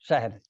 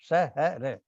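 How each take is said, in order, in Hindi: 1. इसे shahr बोला जाता है, r से पहले कोई स्वर नहीं। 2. इसे sha-har बोला जाता है, r से पहले एक स्वर के साथ। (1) "उर्दू में इसका शुद्ध रूप है शहर" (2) "तो हम लोग बोलते हैं बुलंद शहर"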